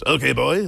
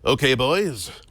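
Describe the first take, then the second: First: It is said in a put-on character voice. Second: It is said in a normal speaking voice.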